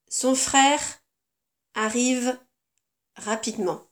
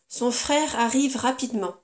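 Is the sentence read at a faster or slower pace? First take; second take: slower; faster. First: The sentence is read at a slower pace. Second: The sentence is read at a faster, normal pace. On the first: "Je lis plus lentement" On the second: "Je vais d'abord lire le texte dans son intégralité"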